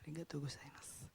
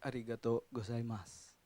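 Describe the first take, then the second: First: It is said very softly. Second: It is said at normal loudness.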